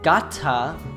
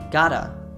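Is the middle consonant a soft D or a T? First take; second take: T; soft D. First: The middle consonant is a clear T. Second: The middle consonant is a soft D. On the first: "instead of saying gotta" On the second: "the T sound becomes a soft D"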